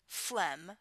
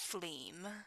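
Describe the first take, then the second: First: The word is said with a short 'e' vowel. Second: The word is said with an 'ee' vowel. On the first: This is the standard way of saying it. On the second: This is the regional way of saying it.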